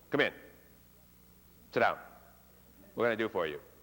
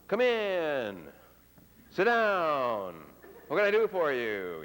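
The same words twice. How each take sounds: First: The pitch falls off very quickly. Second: The pitch falls slowly and drawn out. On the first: The person is busy or unwelcoming. "an abrupt pitch drop, that means they drop their voice off quickly" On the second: The person is being friendly. "the elongated pitch drop, which frequently conveys friendliness"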